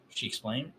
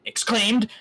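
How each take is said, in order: First: Said in the usual way. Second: Exclaimed! shouted high and loud; mocking exclaim. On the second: Shown as a demonstration. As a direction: bark the word Exclaimed! back in mock outrage.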